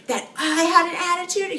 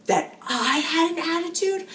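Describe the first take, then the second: First: High, louder indignant yell; retold scream. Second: High, indignant mock yell; retold scream. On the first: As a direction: throw his question back, pitched way up and louder. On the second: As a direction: repeat his outraged question, pitched way up. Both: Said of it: "He starts screaming".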